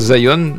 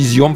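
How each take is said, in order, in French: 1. Le nom se prononce à l'anglaise. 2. Le nom se prononce à la française. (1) "pas Zion ... aucune raison de prononcer ça à l'anglaise" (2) "Je pense qu'on dit Zion"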